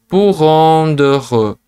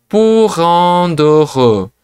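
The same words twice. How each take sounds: Both takes have the same delivery.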